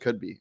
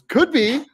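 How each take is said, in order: First: It is said flatly, without excitement. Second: It is said with lively, excited energy. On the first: The speaker calls it wrong. "It wasn't could be" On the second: The speaker calls it right. "he's so excited"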